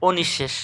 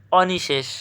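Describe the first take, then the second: First: অনিঃশেষ as "o-nish-shesh"; correct pronunciation. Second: Said in the usual way. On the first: Shown as a demonstration. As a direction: round the first vowel, double the sh in অনিঃশেষ. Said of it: "আমরা সঠিক উচ্চারণ কি?". (অনিঃশেষকে "ওনিশ্-শেশ" উচ্চারণ)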